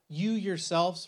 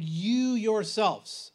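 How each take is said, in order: First: Said in the usual way. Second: "You yourselves" drawn out slowly, YOU leaned on; emphatic you yourselves. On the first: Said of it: "in the Greek text, it's emphatic". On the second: Shown as a demonstration. Teacher to church class, slow emphatic stress on "You yourselves". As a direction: point at them with "You yourselves". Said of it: "it's emphatic".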